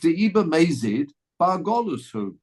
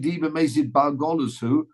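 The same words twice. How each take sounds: First: It is said with a flat, statement intonation. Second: It is said with a questioning intonation. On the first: If he killed intentionally, he goes to exile. The speaker calls it wrong. "you've got the intonation wrong" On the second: Would he really go to exile if he killed intentionally? The speaker calls it right. "As a question"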